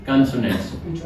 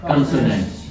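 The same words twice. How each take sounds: Both takes have the same delivery.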